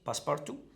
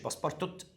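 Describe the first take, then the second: First: The name ends on a vowel, no t. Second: The name ends with a pronounced t sound. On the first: The speaker calls it right. "التي الأخيرة مش بتنطق" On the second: The speaker calls it wrong. "مش باسبارتوت"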